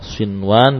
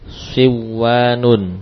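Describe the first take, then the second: First: The n is clearly kept before the w. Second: The n merges into a doubled w sound. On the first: The speaker calls it right. "sinwan dibaca dengan idhar" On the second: The speaker calls it wrong. "kalau diidghamkan jadinya bagaimana?"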